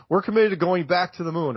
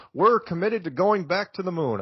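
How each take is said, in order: First: Said in the usual way. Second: Lightly voiced Obama, measured and presidential; a hint of Obama's cadence; mild presidential promise; Obama impersonation. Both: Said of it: "I was kind of doing an Obama impersonation".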